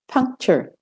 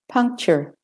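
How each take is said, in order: First: It is spoken in an American accent. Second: It is spoken in an American accent.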